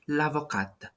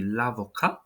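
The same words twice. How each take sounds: First: L'avocate with the final T sounded; French l'avocate. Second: L'avocat with a silent final T; French l'avocat. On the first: Teacher models l'avocate, T pronounced. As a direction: say l'avocate, voicing the T at the end. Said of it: "you see how the pronunciation is a little bit different". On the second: Teacher shows l'avocat with mute T. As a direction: say l'avocat, ending on the vowel. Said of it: "so it is not pronounced". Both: Shown as a demonstration.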